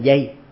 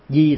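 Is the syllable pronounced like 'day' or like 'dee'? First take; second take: day; dee. First: The syllable has a gliding 'ay' vowel. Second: The syllable has a plain 'ee' vowel. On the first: The speaker calls it wrong. "bà đọc thầy dây, di thành dây" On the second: The speaker calls it right. "phiên âm thầy chữ Hán là ám mơ đi bắt di hồng"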